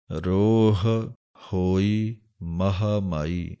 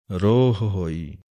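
First: ਰੋਹ and ਹੋਈ said apart with a pause, each h clear; slow ਰੋਹ, break, then ਹੋਈ ਮਹਾਮਾਈ; separate the words. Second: ਰੋਹ ਹੋਈ run together as one word; ਰੋਹ ਹੋਈ with the two h sounds merged; common mistake. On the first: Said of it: "ਵੱਖਰੇ ਵੱਖਰੇ ਬੋਲਣੇ ਹਨ". (ਹਾਹੇ ਵੱਖਰੇ ਵੱਖਰੇ ਬੋਲਣੇ) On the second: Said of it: "ਆਮ ਹੀ ਗਲਤੀ ਕੀ ਹੁੰਦੀ ਹੈ". (ਦੋਵੇਂ ਹਾਹੇ ਇਕੱਠੇ, ਗਲਤ ਉਚਾਰਣ) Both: Shown as a demonstration.

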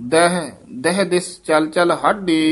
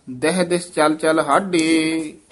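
First: First ਦਹ set apart by a slight break; ਦਹ, short pause, then carry on; pause after first ਦਹ. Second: Said in the usual way. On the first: Shown as a demonstration. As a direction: halt briefly on the first ਦਹ. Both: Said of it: "ਪਹਿਲੇ ਦਹ ਪਦ ਤੇ ਯਮਕ ਲਾ ਦੇਣੀ ਹੈ".

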